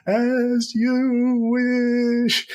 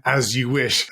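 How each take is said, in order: First: Very high, drawn-out wail of the words; rolling down a hill. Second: Said in the usual way. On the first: Retold or imitated. Mimicking the hero rolling down the hill, high drawn-out wail. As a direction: stretch every word high and slow as if tumbling downhill. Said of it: "he's rolling down it going". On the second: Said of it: "as she pushes him down the hill".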